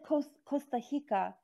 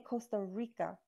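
First: The R in Rica sounds like an h. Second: The R in Rica sounds like an r. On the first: "R is like huh. Because you said Costa Rica" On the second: "we say Costa Rica, like with an R"

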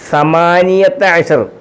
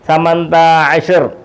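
First: The number is said in its full form. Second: The number is said in a shortened form. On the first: This is the standard word form. "ഇത് വാക്ക് സമാനിയത്ത അഷർ" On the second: This is how people say it in everyday speech. "അതിന് അവർ സംസാരിക്കുമ്പോൾ സംസാരത്തിൽ പറയുന്നത്"

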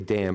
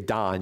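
First: The vowel is a front 'a' as in cat. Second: The vowel is an open 'ah' as in father. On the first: This is the English way of saying the name. "In English, you say Dan" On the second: This is the Hebrew way of saying the name. "in Hebrew you'd say Dan"

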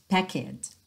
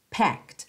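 First: The word ends with an added vowel sound. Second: The word ends in a clipped consonant, no vowel. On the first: The speaker calls it wrong. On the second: The speaker calls it right.

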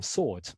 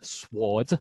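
First: The W sound is silent after the S. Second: The W sound is pronounced after the S. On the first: This is the later, modern form of the word. "the word spelt sword became sword" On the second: This is the older form of the word. "originally pronounced as it was spelt"

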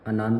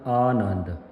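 First: The first vowel is short. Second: The first vowel is long. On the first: The speaker calls it wrong. "ਆਨੰਦ ਨਹੀਂ ਪੜ੍ਹਨਾ" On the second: The speaker calls it right. "ਐੜੇ ਨੂੰ ਕੰਨਾ ਲੱਗਾ ਹੈ"

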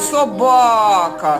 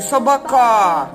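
First: The stress is on the second syllable. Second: The stress is on the third syllable. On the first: The speaker calls it right. "На другий" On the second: The speaker calls it wrong. "На третій"

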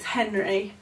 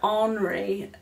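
First: The name is said with an English pronunciation. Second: The name is said with a French pronunciation. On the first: "but it's Henry" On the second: "My mum's French, so I always pronounce the H's like Henri"

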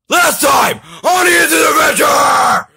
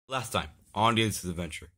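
First: It is said loudly with high energy. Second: It is said flatly with low energy.

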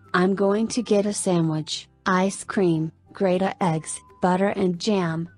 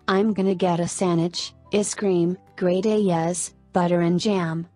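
First: The words are said separately in a halting, flat way. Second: The words are joined and reduced in a smooth, flowing way. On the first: The speaker calls it wrong. "text-to-speech technology may read the following text in a halting, monotonous manner" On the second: The speaker calls it right. "Actual speech often joins or changes sounds so the words flow better"

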